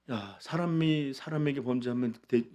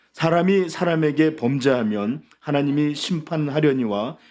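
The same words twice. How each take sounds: First: 사람이 said casually, no weight, trailing off; limp rebuke. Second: 사람이 proclaimed loud, slow and higher, rising at the end; solemn scripture reading. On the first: Retold or imitated. Eli mildly scolding his sons, half-hearted. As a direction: mumble the warning half-heartedly. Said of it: "아버지가 한 일이 뭐예요?". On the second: Acted. Pastor reading Eli's rebuke to the church, loud and slow. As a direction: boom out 사람이 slowly as a warning.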